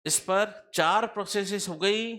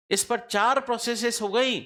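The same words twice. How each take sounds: First: चार stressed, voice rising at गई as if checking; चार marked, ending on a rise for the class; rising tune. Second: Emphatic चार, said firmly to drive the point home; stress on चार. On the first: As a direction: repeat it with a questioning lift at the end. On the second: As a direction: hit the word चार hard, falling to the end. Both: Shown as a demonstration.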